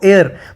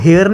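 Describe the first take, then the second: First: The word starts with a vowel, no h sound. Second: The word starts with an audible h sound. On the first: The speaker calls it right. "Pronounce pronounce कैसे करते हैं हम इसको" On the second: The speaker calls it wrong. "इसको हेयर नहीं पढ़ेंगे"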